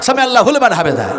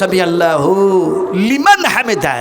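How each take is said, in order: First: The 'hu' is joined to make 'hulman'. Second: The word 'liman' is said clearly before 'hamida'. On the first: The speaker calls it wrong. "লিমান হামেদার জায়গায় বললাম" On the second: The speaker calls it right. "আসলে বলতে হয়"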